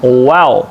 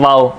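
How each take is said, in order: First: वाओ with rounded lips, no teeth; correct waw. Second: वाओ with teeth on the lip; the mistaken वाओ like v; wrong waw. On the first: Teacher gives the right waw after the wrong one. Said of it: "होंठों की गुलाई". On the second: Teacher shows the common wrong waw. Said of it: "वाओ नहीं कहना". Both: Shown as a demonstration.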